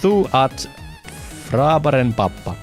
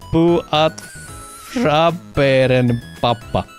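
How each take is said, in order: First: The first word begins with a th sound. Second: The first word begins with a p sound. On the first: The speaker calls it right. "so it's thu" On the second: The speaker calls it wrong. "I am sorry for the horrible pronunciation"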